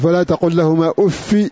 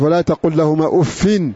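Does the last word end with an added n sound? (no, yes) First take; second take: no; yes. First: The last word ends in -i without n. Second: The last word ends in -in with n. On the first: "بالكسر من غير تنوين" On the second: "بالكسر مع التنوين"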